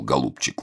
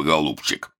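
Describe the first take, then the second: First: Soft, lower, tender голубчик; affectionate. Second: Toothless mumble. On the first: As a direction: say голубчик gently, fondly. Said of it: "ласково сказал Долгорукой". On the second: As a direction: say голубчик mushily, as without dentures. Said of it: "прошамкал". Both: A narrator's reading.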